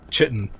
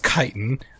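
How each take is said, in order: First: The word begins with a ch sound. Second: The word begins with a k sound. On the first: "it makes a ch sound" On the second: "I know the correct pronunciation is chitin"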